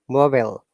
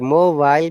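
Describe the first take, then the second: First: It is said with an American pronunciation. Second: It is said with a British pronunciation. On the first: "is the American" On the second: "British accent"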